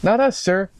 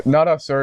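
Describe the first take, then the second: First: Higher officer reply. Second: Said in the usual way. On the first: Acted. Officer answers commissioner, first take.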